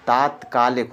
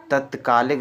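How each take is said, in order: First: "तात्कालिक" with a long first aa; correct form demonstrated. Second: "तत्कालिक" with a short first a; wrong form demonstrated. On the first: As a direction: start "तात्कालिक" with long taat. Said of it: "तात्कालिक होता". ("तात्कालिक" में बड़ा आ) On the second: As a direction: start "तत्कालिक" with short tat. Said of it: "तत्कालिक नहीं होता". ("तत्कालिक" में छोटा अ) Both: Shown as a demonstration.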